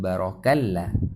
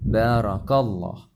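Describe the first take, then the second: First: The L in Allah is light and thin. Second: The L in Allah is heavy and thick. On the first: The speaker calls it wrong. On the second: The speaker calls it right.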